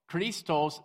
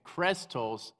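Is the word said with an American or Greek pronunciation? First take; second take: Greek; American. First: The word is said with a Greek pronunciation. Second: The word is said with an American pronunciation. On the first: "that's how you pronounce it in Greek" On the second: "is how you pronounce it in American"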